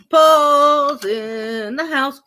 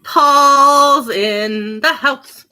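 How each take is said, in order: First: Announcer. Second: Slow, loud drawn-out announcement; announcer. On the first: Owner repeating her dog's entrance, slow hype announcement. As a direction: stretch it out like a ring announcer. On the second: Owner announcing her dog's entrance, slow loud hype. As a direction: announce him like a star arriving. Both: Pretend.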